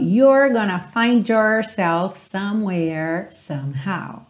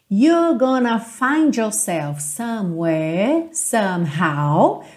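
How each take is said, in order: First: The R sounds are strong and clearly curled. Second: The R sounds are soft and barely pronounced. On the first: "E num sotaque mais americano" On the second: "Percebe que eu não enrolei os R's agora"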